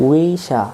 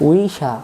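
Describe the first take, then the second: The two takes are said the same way.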